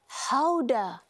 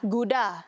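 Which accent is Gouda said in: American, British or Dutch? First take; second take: Dutch; American. First: The word is said in a Dutch accent. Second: The word is said in an American accent. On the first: "Kalau di Belanda, ia disebut sebagai Houda" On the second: "kalau di Amerika lah"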